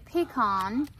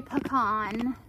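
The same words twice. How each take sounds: First: Pecan as "pee-KAHN", long E then broad AH; her own pecan. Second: Pecan as "puh-KAHN", weak first syllable; mother's pecan. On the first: Shown as a demonstration. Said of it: "I would say". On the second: Retold or imitated. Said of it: "my mother would say".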